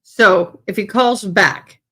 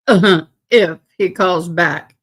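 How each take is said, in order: First: Said in the usual way. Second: Slow, laughing as she says it. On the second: Real, not acted. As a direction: chuckle through the words. Repeats line while laughing.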